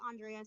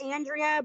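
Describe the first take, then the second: First: "Andrea" said AHN-dree-uh. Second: "Andrea" said AN-dree-uh, drawn out; first vowel of "Andrea" as in "cat". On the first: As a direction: say "Andrea" starting like "on". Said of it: "I get called Andrea so much". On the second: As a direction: answer with "Andrea" starting like "and". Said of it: "Um, it's Andrea". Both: Shown as a demonstration.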